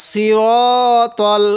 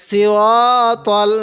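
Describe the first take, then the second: No difference in how they are said.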